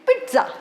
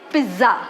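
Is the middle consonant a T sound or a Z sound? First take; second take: T sound; Z sound. First: The middle consonant has a T sound. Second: The middle consonant is a plain Z sound. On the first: The speaker calls it right. "the first Z in the spelling has T sound" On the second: The speaker calls it wrong. "We usually say pizza"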